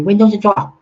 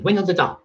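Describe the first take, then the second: First: It is said in a mimicked, heavily accented voice. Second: It is said in the speaker's ordinary voice. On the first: It imitates how someone else says it. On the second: It explains what the phrase means.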